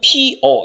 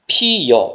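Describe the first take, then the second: First: The second syllable starts with a plain vowel. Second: The second syllable starts with a 'y' glide. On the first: This is the standard pronunciation by rule. "원래 발음은 피어 이렇게 발음해야 돼요" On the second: This is an accepted alternative pronunciation. "반모음 이가 어를 만나서 … 여가 된 겁니다. 그래서 피여 이렇게 발음하는 거죠"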